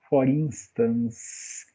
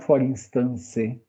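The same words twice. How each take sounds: First: The word ends in an S sound, no vowel. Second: The word ends with an added final vowel sound. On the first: The speaker calls it right. "como a gente não pronuncia esse E final, ele tem som de S" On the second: The speaker calls it wrong. "E não"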